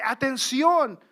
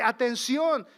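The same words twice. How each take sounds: First: Atención called out loud, like a warning sign; shouted warning; strong warning word. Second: Atención repeated loud and firm; emphatic repeat of the warning; strong word. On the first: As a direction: bark Atención as an alarm. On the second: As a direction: press hard on Atención. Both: Acted. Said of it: "como una palabra fuerte".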